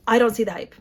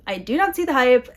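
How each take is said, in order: First: Said in the usual way. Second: "not" split off and punched a bit louder; stress on not. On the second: Shown as a demonstration. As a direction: lean on "not" to insist.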